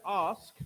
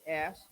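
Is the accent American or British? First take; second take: British; American. First: It is said in a British accent. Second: It is said in an American accent.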